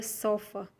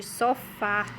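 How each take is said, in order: First: "sofa" com força no "so"; "sofa", tônica na primeira sílaba; sem acento. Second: "sofá" com força no "fá" final; "sofá", última sílaba mais forte; com acento agudo. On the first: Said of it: "o acento não estivesse aqui". ("sofa" dito sem acento no final) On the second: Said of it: "a sílaba fica mais forte". ("sofá" com tônica no fim) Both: Shown as a demonstration.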